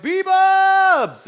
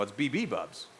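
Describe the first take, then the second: First: High, drawn-out yell of the name; excited chat greeting. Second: Said in the usual way. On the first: Retold or imitated. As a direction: imitate fans hollering a greeting. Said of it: "Some people are like". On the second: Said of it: "And I'm like, you know".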